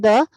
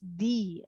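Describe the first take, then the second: First: The word ends in a short 'uh' vowel. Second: The word ends in a long 'ee' vowel. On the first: The speaker calls it wrong. "it is not the" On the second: The speaker calls it right. "As here it is vowel sound. It is the"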